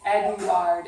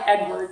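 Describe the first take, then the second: First: The stress is on the last syllable. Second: The stress is on the first syllable. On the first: This is the French form of the name. The speaker calls it right. "the accent is on um, on the ard part of it" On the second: This is the local English form of the name. The speaker calls it wrong. "it's not like Edward like we say here"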